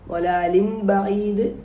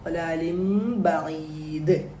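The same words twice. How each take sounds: First: The ending before b is a clear n. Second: The ending before b becomes an m. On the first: The speaker calls it wrong. "എന്നല്ല" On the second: The speaker calls it right. "ആ ലാമിന്റെ തൻവീനിനെ മീമാക്കി മാറ്റി നമ്മൾ ബായിലേക്ക് ചേർക്കണം"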